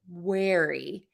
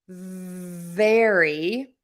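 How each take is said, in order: First: The word starts with a W sound. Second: The word starts with a V sound. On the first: The speaker calls it wrong. "wary with a W, and we don't want that" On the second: The speaker calls it right. "we're looking for the V sound very"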